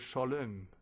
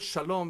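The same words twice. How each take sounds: First: The second vowel sounds like the French e. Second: The second vowel is a plain rounded o.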